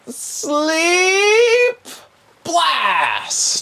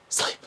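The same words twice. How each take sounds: First: Very high, drawn-out shouted incantation; spell-casting cry. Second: Short, soft acted incantation; hushed spell-casting. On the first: Acted. Game master's sorcerer casts sleep at player, high shout. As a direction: hurl the spell with a loud, stretched cry. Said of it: "And he goes". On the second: Game master's sorcerer lays hand on player, softly casting. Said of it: "put his hand on you and go".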